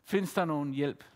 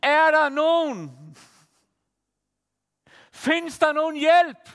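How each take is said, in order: First: Softer, lower recollection of the shout; soft echo of a cry. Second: Higher, louder, slow cry into nothing; retold shout. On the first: Retold or imitated. Preacher recalling the woman's cry, quiet and low. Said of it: "skreg ud og råbte". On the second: Desperate woman calling out on a field, retold shout. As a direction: call out slowly into the empty field, half re-enacted. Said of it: "råber bare".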